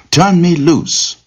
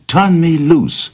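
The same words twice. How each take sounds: First: Much higher, slow, pleading plea; frightened cry repeated. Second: Much higher, slow, pleading cry to be let go; frightened cry. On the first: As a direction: cry it again, high and scared. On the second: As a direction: beg high and slow, stuck and scared. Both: Acted. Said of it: "the rabbit cried".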